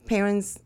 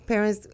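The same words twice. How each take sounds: The two takes are said the same way.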